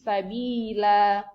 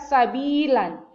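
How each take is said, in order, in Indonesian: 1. Kata ini berakhir dengan vokal panjang. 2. Kata ini berakhir dengan bunyi n. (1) "karena diwakafkan maka menjadi sabila" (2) "apabila kita tidak mewakafkannya maka kita baca sabilan"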